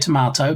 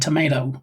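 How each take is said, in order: First: Tomato is said in a British way. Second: Tomato is said in an American way.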